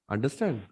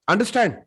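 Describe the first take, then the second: First: Soft, low, affectionate check; loving tone. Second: Sharp, higher-pitched angry demand. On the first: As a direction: say it tenderly, softly. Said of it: "ये प्यार वाला है". (प्यार वाला tone) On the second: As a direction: say it like an angry teacher, pitch raised. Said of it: "ये गुस्से वाला tone है". (गुस्से वाला tone) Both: Shown as a demonstration.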